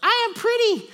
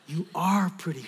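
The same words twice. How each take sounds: First: Put-on very high, loud kid voice; little girl's proclamation. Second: Usual-pitched, emphatic reassurance; father's affirmation. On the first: Little daughter declares it to dad, high loud shout. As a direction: squeal it like a small child. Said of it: "she just goes". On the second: Retold or imitated. Dad answers his little daughter, steady affirmation. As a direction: affirm her, leaning on "are". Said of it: "And then I go".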